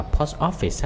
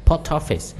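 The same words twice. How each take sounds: First: POST OFFICE as "pos office", no t carried over; unlinked POST OFFICE. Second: POST OFFICE as pos-TOFFICE, higher; linked POST OFFICE. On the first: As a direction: say "post office" unlinked, as two separate words. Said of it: "Không có ai đọc là". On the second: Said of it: "ta sẽ nói âm luôn". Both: Shown as a demonstration.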